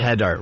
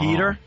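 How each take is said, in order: First: The first vowel is short, as in 'head'. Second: The first vowel is long, as in 'heed'. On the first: The speaker calls it wrong. "if there was two D's, it'd be header" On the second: The speaker calls it right. "But there's only one, so it's"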